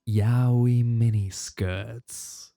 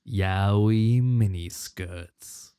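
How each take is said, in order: First: The voice has a strong echo effect. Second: The voice has reverb but no echo. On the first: "in the echoey voice" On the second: "without the echo, just the reverb"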